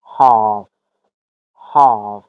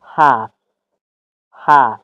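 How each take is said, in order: First: "هاف" mit langem britischem A, "haaf"; British "هاف", long open A; British accent. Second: "هاف" mit kurzem flachem A; American "هاف", short A; American accent. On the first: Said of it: "اما بریتیش هاف". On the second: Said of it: "امریکن". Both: Shown as a demonstration.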